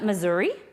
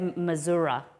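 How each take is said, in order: First: The word ends with an 'ee' sound. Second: The word ends with an 'uh' sound. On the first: "isn't it Missouri?" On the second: "there's no A in it"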